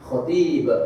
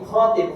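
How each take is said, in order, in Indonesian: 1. Vokal pertama diucapkan pendek. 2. Vokal pertama diucapkan panjang. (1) "Khatib artinya orang yang khutbah" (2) "khotnya panjang"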